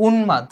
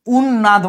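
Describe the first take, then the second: First: উন্মাদ as "un-mad", with a distinct m; m pronounced separately. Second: উন্নাদ as "un-nad", n doubled and no m; wrong doubled form. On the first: Teacher showing the unaltered m, m pronounced separately. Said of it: "আমি মটাকে আলাদাভাবে উচ্চারণ করতেছি". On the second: Teacher showing what not to say, doubled consonant. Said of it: "উন্নাদ বলতেছি না". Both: Shown as a demonstration.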